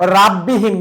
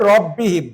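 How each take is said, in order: First: The first vowel sounds open, like 'a'. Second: The first vowel sounds rounded, like 'o'. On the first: The speaker calls it wrong. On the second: The speaker calls it right.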